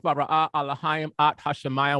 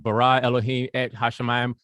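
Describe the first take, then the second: First: The vowels give Alahayim and at. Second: The vowels give Elohim and et. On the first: "Let me take the vowels out" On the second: "if we deal with it with the with the Nakud"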